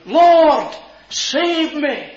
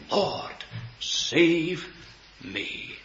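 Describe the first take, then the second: First: High, loud cry for rescue; desperate cry. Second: Slow, softening prayer; hushed personal plea. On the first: Peter sinking in the waves, crying out loudly. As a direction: cry out as if going under. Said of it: "he cried out". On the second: Sinner calling out to the Lord Jesus, hushed plea. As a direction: plead softly, pausing between words. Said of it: "he called out to the Lord Jesus". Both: Retold or imitated.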